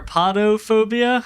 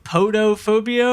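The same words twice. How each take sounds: First: Podophobia with an open "ah", "PAH-doh"; first syllable of Podophobia sounds like "pah"; alternate pronunciation. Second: Podophobia with a long O, "POH-doh"; first syllable of Podophobia rhymes with "go"; alternate pronunciation. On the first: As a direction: say Podophobia starting like "pod". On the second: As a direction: say Podophobia starting like "poe". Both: Shown as a demonstration. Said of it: "how would you say it".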